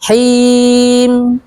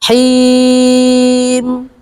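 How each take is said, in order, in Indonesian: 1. Vokal sebelum m di akhir ditahan sebentar. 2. Vokal sebelum m di akhir ditahan sedang. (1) "Sukun dengan satu alif" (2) "Sukun dengan dua alif"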